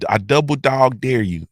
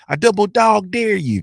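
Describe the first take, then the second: First: It is said in a normal speaking voice. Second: It is said in a put-on storyteller voice.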